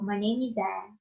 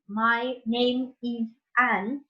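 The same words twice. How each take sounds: First: The words are linked together into the vowels. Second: Each word is said separately, without linking.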